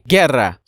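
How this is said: It is pronounced the Hispanic or Portuguese way.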